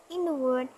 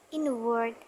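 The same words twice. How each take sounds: The two takes are said the same way.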